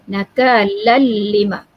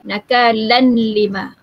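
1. Bunyi n menyatu ke l tanpa dengung. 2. Bunyi n terdengar sebelum l. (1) "tanwin bertemu dengan lam idgham bila gunnah tanpa dengung" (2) "ada yang membaca dengan tanwin ... Jadi itu salah lah"

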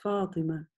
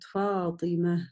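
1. Имя заканчивается на обычный гласный. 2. Имя заканчивается на мягкое h. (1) "как будто ее там и нету, этой буквы" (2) "это «та» не читается, а произносится как буква «г»"

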